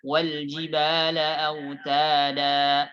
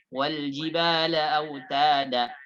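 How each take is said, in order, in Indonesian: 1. Vokal terakhir ditahan dengan panjang sedang. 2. Vokal terakhir dipotong pendek. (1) "Maka dibaca panjang dua harakat" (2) "Tidak boleh pendek"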